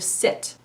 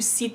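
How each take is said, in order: First: The vowel is a short i sound. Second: The vowel is a long ee sound. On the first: The speaker calls it right. "instead of sit" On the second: The speaker calls it wrong. "pronounce all his I vowels as a long E sound"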